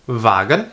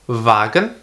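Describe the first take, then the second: No difference in how they are said.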